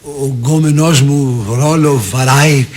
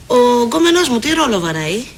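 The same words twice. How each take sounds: First: Very slow, lower, stretched-out repeat; baffled slow echo. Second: Brisker, pushy demand ending upward; pointed question. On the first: Boyfriend repeats Eleni's slang question, slow and baffled. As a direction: draw out each word, puzzling over the slang. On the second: Eleni asks about her supposed boyfriend, pointed question. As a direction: ask it as a challenge. First take, later echoed slowly. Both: Acted.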